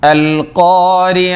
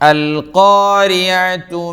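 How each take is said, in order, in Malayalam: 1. ഈ വാക്ക് മൃദുവായ h ശബ്ദത്തിലാണ് അവസാനിക്കുന്നത്. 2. ഈ വാക്ക് tu ശബ്ദത്തിലാണ് അവസാനിക്കുന്നത്. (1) "ഹാത്തയിൽ നിർത്തുമ്പോൾ ഹാഇൻ്റെ ശബ്ദം വേണം" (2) "ചേർത്തി ഓതുമ്പോൾ"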